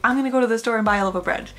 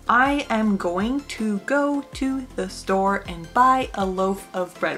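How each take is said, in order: First: Words are reduced and run together. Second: Every word is said fully and separately. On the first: The speaker calls it right. "You say" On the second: The speaker calls it wrong. "You don't say, ... Wow, that took forever to say"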